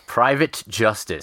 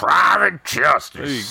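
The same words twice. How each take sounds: First: It is said in a plain voice. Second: It is said in a gravelly voice.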